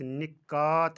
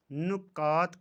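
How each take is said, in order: First: निकात said ni-kaat; निकात as nikaat, long last syllable; correct pronunciation. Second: नुकात said nu-kaat; नुकात as nukaat; mispronunciation. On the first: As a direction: say निकात with i first. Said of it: "सही तलफ़ुज़ निकात". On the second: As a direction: say नुकात with u first. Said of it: "का सही तलफ़ुज़". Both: Shown as a demonstration.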